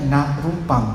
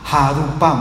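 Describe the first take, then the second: First: The first word starts with an n sound. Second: The first word starts with an h sound. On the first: The speaker calls it right. "Itu soalnya na rupam, bukan ha rupam" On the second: The speaker calls it wrong. "Tapi dia bacanya salah. Dia bacanya ha"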